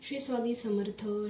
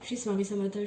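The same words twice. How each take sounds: First: It is said at a moderate pace. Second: It is said very fast.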